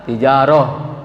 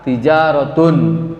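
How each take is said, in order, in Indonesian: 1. Kata ini berakhir dengan bunyi 'h' yang lembut. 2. Kata ini berakhir dengan 't' dan 'un' penuh. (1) "Tapi kalau dimatikan" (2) "kalau tidak dimatikan bunyinya ta"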